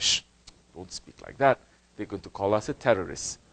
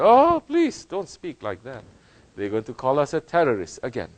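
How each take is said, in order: First: Hushed timid quote. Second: Mock whiny quote. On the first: Retold or imitated. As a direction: shush them like a scared believer. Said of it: "He said". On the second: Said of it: "So many modern Muslims say".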